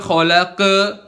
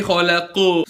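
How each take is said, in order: First: "khalaqa" dengan vokal a terbuka; akhir salah. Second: "khalaqu" dengan pantulan u tebal; pantulan tebal benar. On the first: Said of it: "Bukan khalaqa". ("khalaqa" salah) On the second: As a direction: akhiri "khalaqu" dengan qaf tebal memantul. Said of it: "tapi khalaqu". ("khalaqu" benar) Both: Shown as a demonstration.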